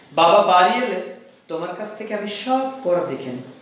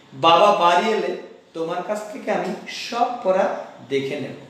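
Both takes have the same delivery.

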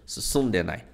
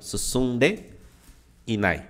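First: The i sound before nai is dropped. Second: The i sound before nai is pronounced. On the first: This is a casual spoken shortening. "Ele tá assim" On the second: This is the full form. "Tá faltando um i aqui"

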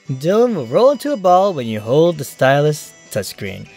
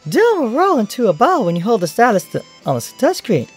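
First: It is said in his normal voice. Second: It is said in a put-on character voice.

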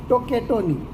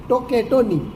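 Both takes have the same delivery.

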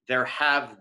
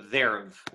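First: It is said as two separate full words. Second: It is contracted into a single syllable. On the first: The speaker calls it wrong. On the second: The speaker calls it right.

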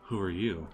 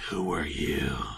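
First: It is said in a plain, casual way. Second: It is said in a dramatic, theatrical way.

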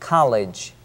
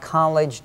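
First: The L sound is clear and distinct. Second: The L sound is weak and unclear. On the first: The speaker calls it right. "L 발음이기 때문에 혀끝이 여러분 혀끝이 윗니 잇몸에 밀착되도록" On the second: The speaker calls it wrong. "college가 아니고"

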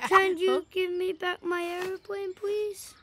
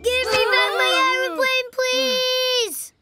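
First: It is said quietly. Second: It is said loudly, screaming.

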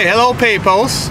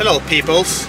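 First: The greeting is said loudly. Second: The greeting is said quietly. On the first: The speaker calls it right. "I need to speak louder" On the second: The speaker calls it wrong. "You speak louder"

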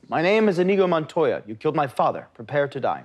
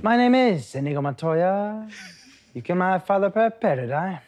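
First: It is said with a normal inflection. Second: It is said with an odd inflection.

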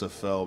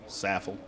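First: The name is said with a French pronunciation. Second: The name is said with an American pronunciation. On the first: "if you're French, it's Saffel" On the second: "if it's Kentucky, Saffel"

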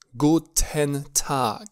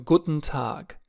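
First: The phrase is said slowly and fully. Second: The phrase is said quickly and reduced. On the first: "dacă este pronunțat mai lent" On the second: "dacă pronunțăm mai repede"

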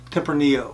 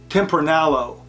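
First: The double L is said as a Y sound. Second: The double L is said as an L sound. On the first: The speaker calls it right. "the correct pronunciation is" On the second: The speaker calls it wrong. "Many people call this"

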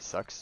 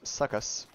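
First: The word is pronounced in the ordinary way. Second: The word is pronounced in an odd, exaggerated way.

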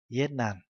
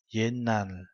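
First: The first syllable ends in a t sound. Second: The first syllable ends in an n sound. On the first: The speaker calls it wrong. "chứ không phải là yen nàn" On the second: The speaker calls it right. "yen nàn chứ không phải là"

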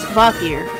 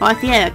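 First: The name gets a plain, ordinary pronunciation. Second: The name gets a fancy, showy pronunciation. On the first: The speaker calls it right. "It's Vothier" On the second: The speaker calls it wrong. "I guess I was just wanting to be fancy with his name"

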